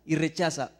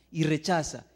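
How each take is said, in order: Both takes have the same delivery.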